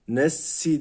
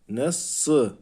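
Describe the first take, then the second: First: The s is followed by a thin, front i vowel. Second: The s is followed by a thick, back ı vowel. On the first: The speaker calls it wrong. "Nes si demiyoruz" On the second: The speaker calls it right. "sat harfi kalın olduğu için sı diyoruz"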